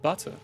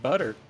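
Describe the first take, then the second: First: The middle consonant is a crisp, clear T. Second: The middle consonant is a soft D-like flap.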